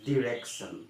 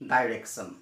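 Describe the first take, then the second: First: The first syllable has a short 'i' vowel. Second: The first syllable has the vowel 'ai'. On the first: The speaker calls it right. "এইটো হৈছে ডিৰেকশ্যন" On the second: The speaker calls it wrong. "আমি কওঁ ডাইৰেকশ্যন"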